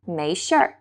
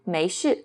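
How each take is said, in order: First: The word ends with an added r-sound. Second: The word ends without an added r-sound. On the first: This is how northern speakers say it. "People from the North would say 没事儿" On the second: This is how southern speakers say it. "people in the South say 没事"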